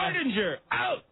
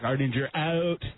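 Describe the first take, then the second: First: It is shouted with more energy. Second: It is said calmly, without shouting.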